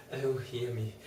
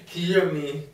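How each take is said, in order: First: "hear me" dropped to a softer broken plea. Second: "hear me" cried higher and louder; loud plea. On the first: Patient begging the doctor, softer broken plea. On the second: Patient begging the doctor, higher louder cry. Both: A narrator's reading. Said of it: "poured forth a torrent of entreaty".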